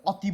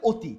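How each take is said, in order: First: অতি starting with an open "aw"; অতি with the অ left unchanged; open initial vowel. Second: অতি starting with a rounded "o"; অতি with অ turned into ও; closed initial O. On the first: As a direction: say অতি as "awti". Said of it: "অতি বলি না". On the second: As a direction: say অতি as "oti". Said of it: "আমরা কি বলি?". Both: Shown as a demonstration.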